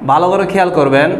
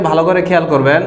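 No difference in how they are said.

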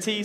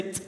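First: Said in the usual way. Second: "t" cut to a vowelless tick; bare consonant. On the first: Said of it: "instead of T, say t". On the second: Shown as a demonstration. Leader swaps word for beatbox sound, ticked "t". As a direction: say "t" as percussion, just the release of air. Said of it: "say t".

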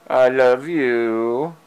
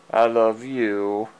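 First: Slow, louder and drawn out; tender slow declaration to the cat; slow loving. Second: Said in the usual way. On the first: Real, not acted. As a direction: linger lovingly on each word. Said twice to cat.

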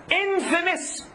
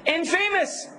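First: INFAMOUS said as IN-fuh-mus; correct infamous. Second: INFAMOUS said as in-FAY-mus; mispronounced infamous. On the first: Teacher corrects a brother, infamous pronounced IN-fuh-mus. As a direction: stress the IN in infamous, short unstressed rest. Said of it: "Pronunciation here is a, is not a joke". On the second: Teacher shows class the misreading, mispronounced infamous as in-FAY-mus. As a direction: say infamous like in plus famous. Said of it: "may misread it and say, or mispronounce it". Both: Shown as a demonstration.

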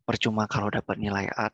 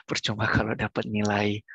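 First: Said in the usual way. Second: Whisper. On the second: Shown as a demonstration. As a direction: drop to a breathy whisper. Repeats line, then whispers it.

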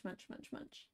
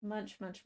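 First: Whispered munching. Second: Murmured munch, munch, much softer; quiet munching narration. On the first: Streamer voicing the cat chewing treats, fading to a whisper. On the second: Streamer voicing the cat chewing treats, soft murmur. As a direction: softly voice the cat's munching. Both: Real, not acted.

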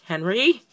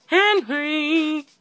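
First: "Henry" said with a rising question tune; "Henry" rising, unsure. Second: High, drawn-out call with falling end; high-pitched exclaimed summons. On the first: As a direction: lift the end of "Henry" as a question. Questioning the partner's name. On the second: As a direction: call the name out high and long. Calls out the partner's name. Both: Real, not acted.

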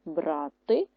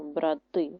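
First: БРАти with the first syllable stressed; BRAH-ty, weight up front. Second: БраТИ with the last syllable stressed; brah-TY, weight on the end; stress on second syllable. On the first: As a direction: dictate брати leaning on БРА. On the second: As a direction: dictate брати leaning on ТИ. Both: Shown as a demonstration. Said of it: "Наголос може змінити значення слова".

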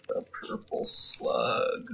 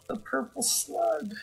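First: Slow breathless whisper of loss; whispered grief. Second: High, soft, slow lament; dismayed lament. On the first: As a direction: whisper "The purple slug" in despair. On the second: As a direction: mourn the loss of the purple slug. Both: Real, not acted. Mourning the lost slug.

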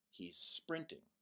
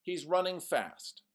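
First: Plain. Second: Said in the usual way. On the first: Shown as a demonstration. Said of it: "one word that's very powerful". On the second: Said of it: "Here's some examples".

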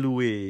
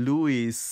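First: Louis with a silent s, "LOO-ee"; French-style British pronunciation. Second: Louis with a sounded final s, "LOO-iss"; American pronunciation of Louis. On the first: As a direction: say Louis as in French, ending on an open ee. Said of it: "เขาจะออกเสียงให้เหมือนกับต้นตำรับเจ้าของภาษาคือ". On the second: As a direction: say Louis the American way, hissing the S at the end. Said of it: "American ภาษาอังกฤษแบบอเมริกันเนี่ยก็จะใส่". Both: Shown as a demonstration.

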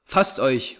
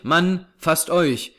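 First: Said in the usual way. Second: "Mann" higher and drawn out, then "fasst euch"; slow, raised-pitch emphasis on "Mann"; insistent urging. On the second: A narrator's reading. Repeats the urging more insistently.

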